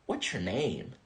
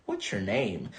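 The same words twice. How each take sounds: First: The words are contracted and run together. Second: The words are contracted and run together.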